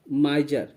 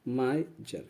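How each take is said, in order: First: Said in the usual way. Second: "माइजर" softly split as माइ, pause, जर; teacher's quiet two-part breakdown of "माइजर", माइ then जर; syllable-split pronunciation. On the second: Shown as a demonstration. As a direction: sound out "माइजर" low and soft, माइ - जर. Teacher sounds out the word.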